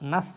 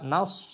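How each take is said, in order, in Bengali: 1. 's' ধ্বনিটি পাতলা ও হালকা। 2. 's' ধ্বনিটি মোটা ও ভারী। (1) "নাস হলে সিন উচ্চারিত হয়ে যাবে" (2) "সিন না সদ মোটা করে"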